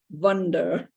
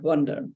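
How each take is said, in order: First: It is said in an Indian accent. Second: It is said in a careful standard accent.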